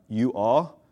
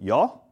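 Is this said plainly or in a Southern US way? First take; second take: plainly; Southern. First: It is two plain words in a neutral accent. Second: It is one contracted word in a Southern accent.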